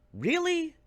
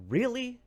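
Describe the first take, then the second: First: Much higher, louder Really with a fall; exaggerated incredulous Really; exasperated disbelief. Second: High disbelieving Really; pitched up in disbelief; short incredulous question. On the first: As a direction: push the disbelief to the top. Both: Real, not acted.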